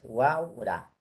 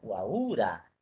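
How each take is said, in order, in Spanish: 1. El acento cae en la a. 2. El acento cae en la segunda u. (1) "la forma es Huaura" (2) "si yo pongo el acento en, la, en esta U"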